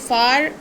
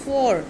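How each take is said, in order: First: The vowel sounds like 'ah'. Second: The vowel sounds like 'aw'. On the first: The speaker calls it wrong. "सो फार हम पढ़ते हैं इसको" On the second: The speaker calls it right. "It is फोर"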